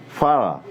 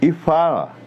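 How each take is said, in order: First: Said in the usual way. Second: E fala said around a pen in the teeth. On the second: Shown as a demonstration. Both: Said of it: "Prenda nos dentes".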